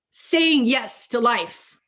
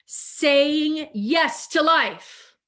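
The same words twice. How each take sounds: First: Slow affirmation. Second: "Saying yes to life" drawn out slowly, each word weighted; slow emphatic affirmation. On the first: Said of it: "That's what I was gonna say before". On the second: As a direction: let "to" ring out slow and full. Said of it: "That's what I was gonna say before that I held off on". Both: Shown as a demonstration.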